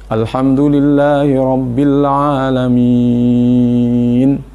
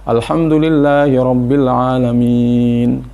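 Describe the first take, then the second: First: The vowel before the last sound is held six beats. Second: The vowel before the last sound is held four beats. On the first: "Atau sampai enam" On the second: "Atau empat, ... empat"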